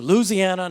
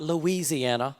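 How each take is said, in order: First: The word is said loosely, with syllables run together. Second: The word is said carefully, every syllable clearly enunciated. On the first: This is how locals say it. The speaker calls it right. "you do not enunciate that word. So Louisiana" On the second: This is how outsiders say it. The speaker calls it wrong. "not Louisiana"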